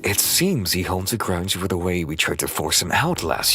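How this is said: It is read in an exaggerated, animated cartoon style.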